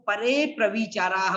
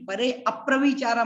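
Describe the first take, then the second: First: No vowel is said between the two words. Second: An extra 'a' vowel is said before 'pravicara'. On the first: The speaker calls it right. "तो परे प्रविचारा बोलना है" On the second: The speaker calls it wrong. "मत बोल देना आप लोग, वो ठीक नहीं रहेगा"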